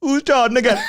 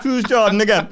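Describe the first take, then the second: First: Higher, laughing mock repeat; a friend teasing, echoing her with a laugh; Chunks mocking the girl. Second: Put-on lightly Jamaican-accented girl, laughing; a hint of Jamaican accent, laughing; Jamaican accent imitation. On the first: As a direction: parrot her line back through laughter. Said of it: "Chunks just goes". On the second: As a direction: mimic a Jamaican girl's puzzled question, higher. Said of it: "this Jamaican girl".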